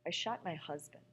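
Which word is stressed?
husband. The stress falls on the word husband.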